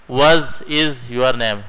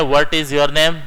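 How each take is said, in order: First: "Was is your name?" with the T of "What" turned to a Z, said slowly; slow, say "Was" with a Z sound instead of T; American way. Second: "What" with a crisp T, "What is your name?" in British style. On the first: Teacher shows students the American way, slow, T becomes Z. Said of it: "टी को जेड बना दिया". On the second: Teacher shows students the British way to say it, crisp T. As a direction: say "What" with a clear T sound. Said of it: "British वाले कहते हैं". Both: Shown as a demonstration.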